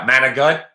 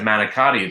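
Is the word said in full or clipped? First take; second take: clipped; full. First: The word is clipped, losing its final vowel. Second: The word is said in full with every syllable. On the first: "I don't know why they say it like that" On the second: "I said manicotti"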